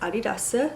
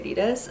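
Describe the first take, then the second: First: It is said with a Korean pronunciation. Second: It is said with a non-Korean pronunciation. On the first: "In Korea it's Adidas" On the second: "I used to say Adidas"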